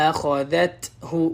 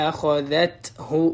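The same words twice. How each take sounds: Both takes have the same delivery.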